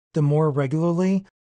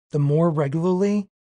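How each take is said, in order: Both takes have the same delivery.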